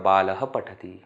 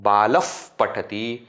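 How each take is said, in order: First: The final sound stays a plain breathy h. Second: The final h becomes a lip friction sound. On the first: "or Visarga is remaining as Visarga" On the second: "Either Upadmaniya"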